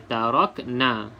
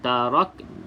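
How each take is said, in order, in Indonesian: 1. Kata ini berakhir dengan n diikuti vokal. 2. Kata ini berakhir dengan n tanpa vokal. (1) "itu dah sebut baris, tak boleh" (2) "kita nak sebut huruf nun tetapi tidak sebut sampai baris dia"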